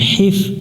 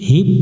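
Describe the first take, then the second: First: The word ends with an f sound. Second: The word ends with a p sound. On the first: The speaker calls it right. "হি মিলবে ফায়ের সাথে হিফ" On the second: The speaker calls it wrong. "হিপ পড়া যাবে না"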